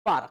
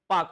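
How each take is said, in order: First: "पारक" with the R sounded; wrong pronunciation. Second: "पाक" with no R, one syllable; correct pronunciation. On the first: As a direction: say "पारक" as paa-ruk. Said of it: "ना कि". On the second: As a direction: say "पाक" as paak. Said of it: "पाक होता है". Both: Shown as a demonstration.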